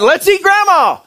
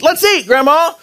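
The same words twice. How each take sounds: First: There is no pause before Grandma. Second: There is a pause before Grandma.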